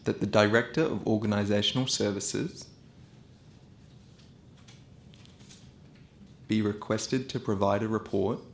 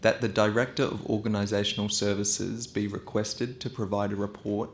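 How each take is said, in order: First: It is spoken at a slow pace. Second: It is spoken at a fast pace. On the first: "once slow" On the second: "So I'll go fast first"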